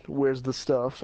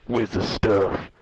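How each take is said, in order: First: Said in the usual way. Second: Lower, louder, slow thug voice; menacing thug. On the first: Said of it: "the guy is like". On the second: Retold or imitated. Sketchy man demands the drugs from the kid, slow menacing low voice. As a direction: growl it out slow like a dealer. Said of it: "or no, he was like".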